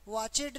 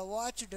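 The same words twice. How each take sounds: First: वॉचेड with a full "-ed" syllable; mispronounced ending. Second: वॉच्ड in one syllable, ending in a bare ड; half-sounded ending. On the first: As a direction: say वॉचेड in two beats, vowel before the ड. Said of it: "वॉचेड नहीं होगा". (वॉचेड, 'एड' पूरा बोलकर) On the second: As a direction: squeeze वॉच्ड together, no vowel before the ड. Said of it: "आधा पढ़ो". (वॉच्ड में ड आधा पढ़कर) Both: Shown as a demonstration.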